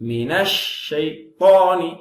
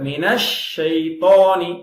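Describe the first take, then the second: No difference in how they are said.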